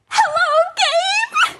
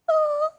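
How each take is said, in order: First: It is said in an excited tone. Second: It is said in a sad tone.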